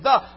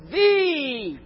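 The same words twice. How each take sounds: First: The vowel is a short, weak 'uh' sound. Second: The vowel is a long 'ee' sound. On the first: "before a consonant, we pronounce the word the, with T-H-U-H" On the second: "before a vowel, it's double E, T-H-E-E"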